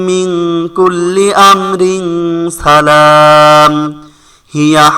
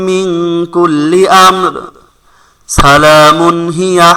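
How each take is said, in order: First: The reciter joins amrin salam, then stops before hiya. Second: The reciter stops after amr, then joins salamun hiya. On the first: "আবার" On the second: "যে কোনো এক জায়গায় থামতে হবে, এক জায়গায় মিলাইতে হবে"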